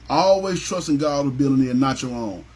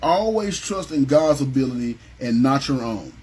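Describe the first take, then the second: First: Said in the usual way. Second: Slow emphatic statement. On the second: Shown as a demonstration. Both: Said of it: "So number thirteen is this".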